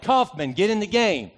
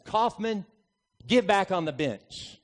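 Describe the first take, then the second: First: Loud call with the name punched; coach yelling. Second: Calmly. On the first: Coach yelling down the bench at his player, loud. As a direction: yell it down the bench. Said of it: "my coach looked down the bench and yelled". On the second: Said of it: "looks at me very calmly and says". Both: Retold or imitated.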